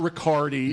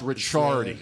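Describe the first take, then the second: First: The middle consonant sounds like a hard k. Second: The middle consonant sounds like ch. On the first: The speaker calls it wrong. "it's not Riccardi" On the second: The speaker calls it right. "C C goes to a C H"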